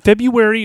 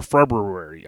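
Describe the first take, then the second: First: "February" as Feb-yoo-ary, dropping the first r; simplified pronunciation. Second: "February" with every r heavily sounded; overdone pronunciation. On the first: Host asking which way is correct, simplified pronunciation. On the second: Host offering the other way to say it, overdone pronunciation. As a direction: roll through extra r's in "February". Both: Shown as a demonstration. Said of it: "I always say that one wrong".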